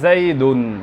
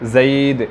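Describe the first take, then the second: First: The word ends with an added -un sound. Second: The word ends bare, with no case ending. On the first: It marks the word as the subject. "এই দুন বলার দ্বারা কি প্রকাশ পেল? ফাইল।" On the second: Its role in the sentence is not shown. "আমি এরাব দিলাম না, ওয়াকফ করলাম।"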